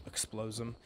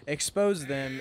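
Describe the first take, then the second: First: "explose" said with an extra l, slip of the tongue; mispronounced. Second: "Expose" said properly as ex-POSE, no l; corrected pronunciation. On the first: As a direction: say "explose them" instead of "expose". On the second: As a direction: carefully say "Expose them". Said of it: "explose them". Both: Real, not acted.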